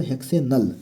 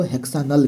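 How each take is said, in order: First: Said in the usual way. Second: हेक्सानल with a long "aa" in the middle syllable; हेक्सानल, middle vowel open "aa"; alternative pronunciation. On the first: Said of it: "जहाँ कुछ लोग इसको हेक्सानल भी पढ़ते हैं". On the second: Shown as a demonstration. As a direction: say हेक्सानल as "hex-AA-nal", not "hex-ay-nal". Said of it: "कुछ लोग इसको हेक्सानल भी पढ़ते हैं".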